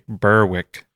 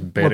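First: The name is said the American way. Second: The name is said the local way. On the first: The speaker calls it wrong. "as Americans say" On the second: The speaker calls it right. "But it's Berwick"

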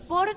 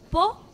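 First: The word ends with a clear r sound. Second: The final r sound is left off. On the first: The speaker calls it right. "en vez de decir por" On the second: The speaker calls it wrong. "digo po"

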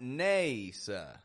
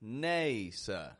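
First: The first vowel is a clear, tense A. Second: The first vowel is a clear, tense A.

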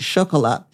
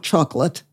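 First: The word is pronounced the French way. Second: The word is pronounced the English way.

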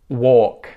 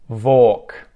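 First: The word starts with a W sound. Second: The word starts with a V sound. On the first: The speaker calls it right. "five words that start with the W sound" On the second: The speaker calls it wrong. "mispronounce it with a V"

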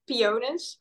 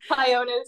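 First: The word is pronounced with Dutch sounds. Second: The word is pronounced with English sounds. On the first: "In Dutch, we say Pionus" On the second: "But Pionus is what I say in English"

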